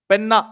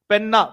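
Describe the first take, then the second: The two takes are said the same way.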